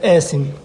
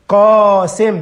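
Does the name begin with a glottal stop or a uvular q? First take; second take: glottal stop; uvular q. First: The name begins with a glottal stop. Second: The name begins with a deep uvular q sound. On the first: The speaker calls it wrong. "بننطق القاف الف" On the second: The speaker calls it right. "اسمها قاسم بالقاف"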